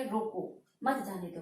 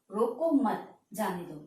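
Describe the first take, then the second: First: "रोको", pause, then "मत जाने दो" run together; pause after रोको. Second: "रोको मत" together, pause, then "जाने दो"; slow "रोको मत", stop, then "जाने दो"; pause after मत. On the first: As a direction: break after "रोको", keep "मत जाने दो" as one phrase. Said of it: "कि उसे रोक लो". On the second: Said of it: "रोको मत के बाद यानी coma". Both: Shown as a demonstration.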